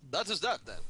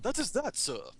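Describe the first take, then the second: First: It is said in his own normal voice. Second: It is said in an imitation of Crichton's voice.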